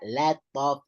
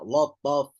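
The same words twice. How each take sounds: First: The L sound is light and thin. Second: The L sound is heavy and thick. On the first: The speaker calls it right. "You hear that?" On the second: The speaker calls it wrong.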